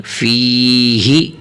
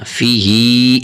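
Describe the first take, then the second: First: فی ہی with long "fee" and short "hi"; stretched ya, correct. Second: فی ہی with short "fee" and drawn-out "hee"; overstretched ha, wrong. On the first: Teacher showing only ya stretched, long "fee" in فی ہی. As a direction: hold the first syllable, cut the last in فی ہی. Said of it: "یا کو کھینچنا ہے بس". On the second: Teacher showing how not to read, long ending on فی ہی. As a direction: lengthen the last syllable of فی ہی wrongly. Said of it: "ہا کو زیادہ بھی نہیں کھینچنا". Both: Shown as a demonstration.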